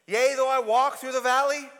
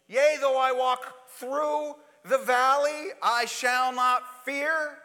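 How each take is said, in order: First: Loud, solemn psalm reading; psalm recitation. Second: Slow, drawn-out solemn psalm line; slow psalm recitation. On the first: Preacher recites the psalm to the congregation, solemn and loud. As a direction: intone the line like scripture. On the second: Preacher repeats the psalm to the congregation, slower and drawn out. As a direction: stretch every word like a vow. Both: Acted.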